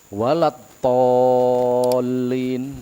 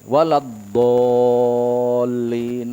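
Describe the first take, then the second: First: The last word starts with a T sound. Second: The last word starts with a D sound. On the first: The speaker calls it wrong. "kalau huruf dot dibaca huruf to jelas salah" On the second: The speaker calls it right.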